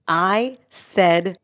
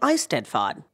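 First: The word is said slowly. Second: The word is said at normal speed.

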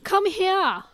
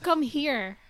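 First: It is said in an Australian accent. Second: It is said in a Filipino accent.

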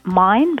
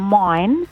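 First: The vowel is said plainly and short. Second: The vowel is drawn out a little longer.

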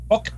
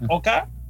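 First: It is said with English sounds, like 'oh-kay'. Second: It is said with Spanish sounds, like 'oh-ka'.

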